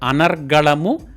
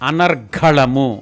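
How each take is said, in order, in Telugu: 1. g ధ్వని అల్పప్రాణం. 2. g ధ్వని మహాప్రాణం. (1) "ఒక పదంలో రా కింద గావొత్తు" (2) "మరొక పదంలో రా కింద ఘావొత్తు"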